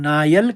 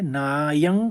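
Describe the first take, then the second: First: The word ends in an l sound. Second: The word ends in a nasal sound.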